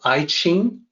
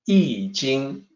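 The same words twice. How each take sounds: First: It starts with 'eye' and a 'ch' sound. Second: It starts with 'ee' and a 'j' sound. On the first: The speaker calls it wrong. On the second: The speaker calls it right. "It's actually"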